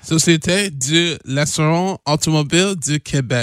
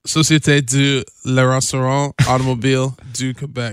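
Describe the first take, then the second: First: "Société de l'assurance automobile du Québec" in smoother French, "l'assurance" slurred; French agency name said faster. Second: "Société de l'assurance automobile du Québec" tried in careful French; French name. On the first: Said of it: "you just forgot this on l'assurance". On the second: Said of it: "let's start from the top". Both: Shown as a demonstration.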